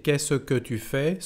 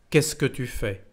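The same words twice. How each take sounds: First: "Qu'est-ce que tu fais?" slowly, sounding the schwa after "Qu'est-ce"; full careful pronunciation. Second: "Qu'est-ce que tu fais?" with "Qu'est-ce que" run together as "kess-kuh"; spoken contraction. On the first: Teacher showing learners the long form of "Qu'est-ce que tu fais?", fully pronounced. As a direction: say "Qu'est-ce que tu fais?" syllable by syllable, "kess-uh-kuh". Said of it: "en vez de decir".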